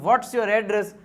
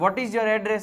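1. 'what is' ને એક ઉચ્ચારાંશમાં ટૂંકાવીને 'what's' બોલાય છે. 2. 'what is' બે પૂરા શબ્દો તરીકે બોલાય છે.

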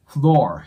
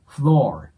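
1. 単語は舌を巻いたrの音で終わります。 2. 単語は舌を巻いたrの音で終わります。

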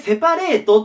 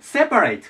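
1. アクセントは最初の音節にありません。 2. アクセントは最初の音節にあります。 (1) "日本語でセパレートって言い方をするんですけど" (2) "アクセント前に来ます。つまり、セパレートっていう感じになります。セが先にアクセントに来る。"

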